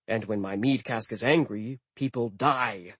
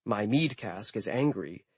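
First: Menacing build. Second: Soft, menacing with stress on mead; menacing whisper-threat. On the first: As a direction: let angry rise then drop ominously on people die. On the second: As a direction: pretend ominous line, mead stressed and falling. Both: Pretend. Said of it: "I waited for him to say".

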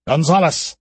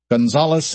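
First: Called out. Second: Said in the usual way. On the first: Acted. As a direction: call Gonzalez across the tunnel. Alistair calls out. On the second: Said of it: "narration says the name".

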